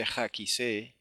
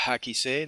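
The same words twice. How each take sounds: First: "Hakise" with a harsh throaty kh at the start; He misread as Het. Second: "Hakise" with a light, breathed h at the start; correct He pronunciation. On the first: Teacher showing the mistake, "Hakise" with rasped kh. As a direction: say "Hakise" slowly as "Khakise", scraping the first sound. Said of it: "no se dice Hakise". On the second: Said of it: "se dice Hakise". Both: Shown as a demonstration.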